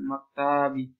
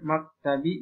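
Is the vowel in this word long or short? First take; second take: long; short. First: The vowel is said long. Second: The vowel is said short. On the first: The speaker calls it wrong. "ini salah kitabannya" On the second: The speaker calls it right. "ini maktabi pendek"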